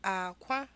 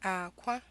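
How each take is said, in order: First: A low tone is followed by a high tone. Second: The same.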